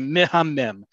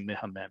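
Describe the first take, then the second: First: The word is said emphatically, with strong energy. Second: The word is said flatly, with little energy. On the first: The speaker calls it right. "You have to say mehamem. You really have to emphasize this word" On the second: The speaker calls it wrong. "I can't say mehamem"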